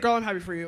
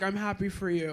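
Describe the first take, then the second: First: It sounds sarcastic and shady. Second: It sounds tired and plainly sincere.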